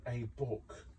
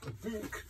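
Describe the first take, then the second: First: Said in the usual way. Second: BOOK in a tiny, very high, soft voice; playful squeak. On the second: Pretend. Crafter hunting aloud for a book, playful squeak. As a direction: squeak the word BOOK quietly.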